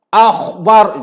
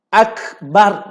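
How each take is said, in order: First: The consonant before b is a raspy kh. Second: The consonant before b is a hard k. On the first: The speaker calls it wrong. "baca huruf kha ... Salah tuan-tuan" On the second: The speaker calls it right. "Ini huruf kaf ... Bukan akhbar"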